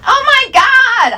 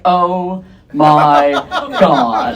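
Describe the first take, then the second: First: Very high, drawn-out squeal; high-pitched hammed-up freak-out; girls freaking out. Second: Low, unhurried, unexcited drop; deep-voiced, underwhelmed reaction, pausing before the last word; deadpan freak-out. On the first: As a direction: squeal it way up high like a hysterical girl. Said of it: "Other girls freak out". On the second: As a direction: freak out with no hysteria at all. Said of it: "I freak out".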